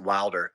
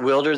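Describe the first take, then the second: First: The first syllable sounds like 'wild'. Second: The first syllable sounds like 'will'. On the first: "I would pronounce it Wilder. ... Because it's wild with a ER on the end" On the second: "I know we say wilderness"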